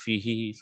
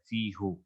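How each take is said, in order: First: The word ends with an 'ee' vowel. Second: The word ends with an 'oo' vowel. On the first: The speaker calls it right. "Flow के साथ फी ही सुनने में अच्छा लगता है" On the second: The speaker calls it wrong. "फी हु पढ़ना अरब पसंद नहीं करते"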